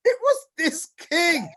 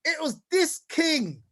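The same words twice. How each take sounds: First: Booming it out with a laugh; laughing shout. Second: Said in the usual way. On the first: Real, not acted. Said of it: "laugh shout". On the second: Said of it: "I'm gonna say this slowly".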